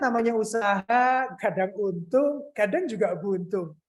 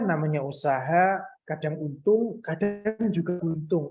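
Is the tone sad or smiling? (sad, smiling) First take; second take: smiling; sad. First: It is read in a cheerful, smiling tone. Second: It is read in a sad tone. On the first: The speaker calls it wrong. "bacanya pakai senyum" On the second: The speaker calls it right. "kita baca sedih"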